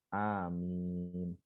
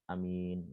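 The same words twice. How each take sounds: First: Both vowels are drawn out long. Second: The vowels are kept short. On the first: "dua-duanya panjang" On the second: "Ada yang hanya pendek"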